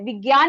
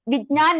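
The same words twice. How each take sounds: First: The word is said the North Indian way. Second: The word is said the Malayalam way. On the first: "एक north Indian को ज्ञा pronounce करने दिया तो वो ज्ञा ही बोलते हैं, विज्ञान ही बोलते" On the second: "विज्ञान नहीं बोलते"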